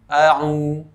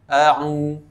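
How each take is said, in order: No difference in how they are said.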